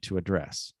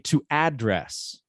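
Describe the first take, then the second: First: The stress is on the second syllable. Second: The stress is on the first syllable. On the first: The speaker calls it right. "The verb always has to be to address" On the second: The speaker calls it wrong. "We can't say to address. That doesn't exist"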